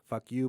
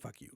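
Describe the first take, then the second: First: It sounds openly hostile and aggressive. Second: It sounds only subtly hostile, held back.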